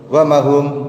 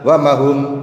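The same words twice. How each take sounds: No difference in how they are said.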